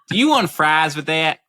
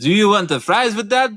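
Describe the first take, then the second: First: It is said in a southern American accent. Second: It is said in a mock French accent.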